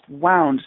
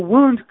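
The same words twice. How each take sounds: First: It is said like the past of winding. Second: It is said as the word for an injury. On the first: It means wrapped tightly around something. "could also be pronounced wound" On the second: It names a hurt to the body. "That a wound"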